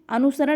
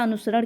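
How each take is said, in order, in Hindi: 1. स-ध्वनि तालव्य 'sh' है। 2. स-ध्वनि दंत्य 's' है। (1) "जिसमें तालुसा होता है वो गलत होता है" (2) "दंती सा वाला अनुसरण क्या होता है, सही होता है"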